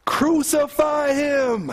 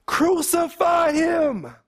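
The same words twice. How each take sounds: First: Slow, high shout of an angry mob; crowd shouting. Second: Crowd shouting even more. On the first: The crowd shouting back at Pilate, a slow high shout. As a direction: drag it out as a furious crowd cry. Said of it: "They shouted back". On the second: The crowd shouting all the more at Pilate, a slow high scream. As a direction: push it past the first shout into a frenzy. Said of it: "But they shouted all the more". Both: Acted.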